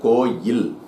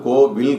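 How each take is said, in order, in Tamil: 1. நடுவில் இருப்பது 'y' ஒலி. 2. நடுவில் இருப்பது 'v' ஒலி. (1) "அது கோவில் கிடையாது, கோயில்" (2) "இந்த வார்த்தையை எப்படி நம்ம தப்பா உச்சரிக்கிறோம் அப்படின்னா கோவில்"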